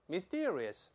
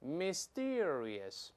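First: The word is said faster. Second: The word is said slowly. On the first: "再快点" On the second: "我们跟老师慢慢来一遍"

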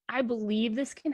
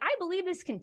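First: The voice is flat and low in energy. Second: The voice is lively and full of energy. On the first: The speaker is not convinced or enthusiastic. The speaker calls it wrong. "Blah, right?" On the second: The speaker truly believes in what is offered. The speaker calls it right. "or what if I came at you as like, oh my gosh"

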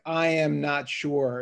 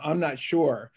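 First: I and am are said as separate words. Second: I and am merge into one contracted syllable.

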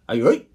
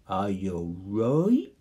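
First: The phrase is said quickly. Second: The phrase is said slowly. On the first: "You can say it fast" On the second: "You can say it slow"

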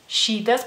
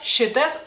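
First: The i vowel is held long. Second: The i vowel is short and clipped. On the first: The speaker calls it wrong. "así es como la pronuncian ustedes en español" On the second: The speaker calls it right. "la I cortita, es corta"

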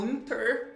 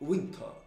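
First: The final R is pronounced strongly. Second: The final R is soft and barely heard. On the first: "com esse R forte" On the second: "Soando como soando um pouquinho mais leve"

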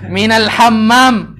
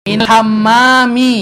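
First: The last word ends without its final vowel. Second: The last word ends with a clear final i. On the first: The speaker calls it wrong. "Jangan dipelankan akhirnya ya" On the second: The speaker calls it right. "Justru itu yang dicari"

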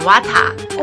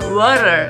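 First: It is said with a strong Korean accent. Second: It is said with a native-like English accent. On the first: The speaker calls it wrong. "아빠가 영어 발음이 영어 안 좋거든" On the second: The speaker calls it right. "엄마 발음은 좋아"

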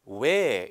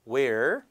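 First: It is said in a British accent. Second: It is said in an American accent. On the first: "영국 발음 같은 걸로 들리면 where이 아니라 where 이렇게" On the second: "미국 발음이니까 where"

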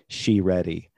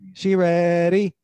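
First: It is said in the speaker's normal voice. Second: It is said in an imitated, put-on voice.

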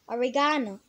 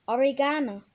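Both takes have the same delivery.

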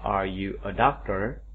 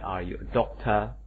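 First: It is said in an American accent. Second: It is said in a British accent. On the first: "Kalau kata orang Amerika" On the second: "Kalau British English"

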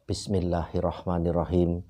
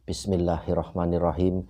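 The two takes are said the same way.

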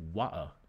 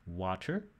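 First: The middle consonant is a glottal stop. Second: The middle consonant is not a glottal stop.

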